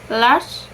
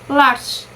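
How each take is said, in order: The two takes are said the same way.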